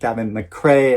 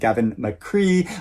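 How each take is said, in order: First: The surname is said with its Irish vowel. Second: The surname is said with an Americanized vowel. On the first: The speaker calls it right. "it should be pronounced" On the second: The speaker calls it wrong. "I pronounced the author's name"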